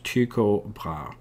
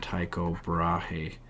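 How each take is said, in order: First: The name is said the Danish way. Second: The name is said the common English way. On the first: "if you're a Dane, they pronounce this" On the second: "a lot of people would call him"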